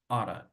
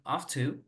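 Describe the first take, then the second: First: The words are linked into one reduced form. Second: The words are said fully and separately. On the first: "you can say oughta" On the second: "instead of saying ought to"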